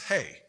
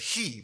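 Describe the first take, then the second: First: The word ends in an 'ay' vowel. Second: The word ends in an 'ee' vowel. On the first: The speaker calls it right. "but it's hey" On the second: The speaker calls it wrong. "you think it says he"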